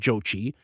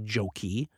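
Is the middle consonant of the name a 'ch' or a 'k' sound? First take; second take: ch; k. First: The middle consonant is a 'ch' sound. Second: The middle consonant is a 'k' sound. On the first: "You can go with a couple different pronunciations" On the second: "could also be called the House of Joki"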